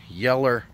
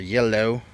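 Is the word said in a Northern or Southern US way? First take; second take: southern; northern. First: It is said the Southern way, ending in 'er'. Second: It is said the Northern way, ending in 'oh'.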